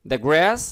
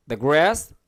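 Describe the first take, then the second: No difference in how they are said.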